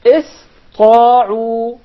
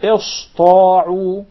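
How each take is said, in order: First: Ista'u recited with a clear thin S; loud, drawn-out ista'u with proper sin; correct sin. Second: Ista'u with a heavy S; drawn-out ista'u mispronounced with sad; wrong sad for sin. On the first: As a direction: keep the sin light before the heavy ta. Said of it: "So we say". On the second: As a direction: thicken the S into a sad, as a mistake. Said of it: "It is a fatal mistake to say". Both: Shown as a demonstration.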